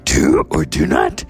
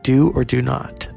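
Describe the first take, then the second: First: It is said in a put-on character voice. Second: It is said in the speaker's ordinary voice. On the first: "But I have to say it in the Yoda voice" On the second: "Remember Yoda said"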